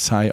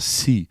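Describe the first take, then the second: First: The name is read with a German pronunciation. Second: The name is said with a French pronunciation. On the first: The speaker calls it wrong. "Sy wird natürlich nicht Sy ausgesprochen" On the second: The speaker calls it right. "Bien sûr, je parle français moi"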